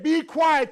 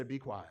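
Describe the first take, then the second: First: Loud command. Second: Quiet firm hush. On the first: Retold or imitated. Caleb silencing the complainers, loud command. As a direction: silence them hard. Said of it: "They said". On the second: Shown as a demonstration. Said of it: "you ought to say".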